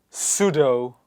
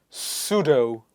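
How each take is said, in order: No difference in how they are said.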